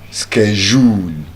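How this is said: It is said with an American pronunciation. "While the American"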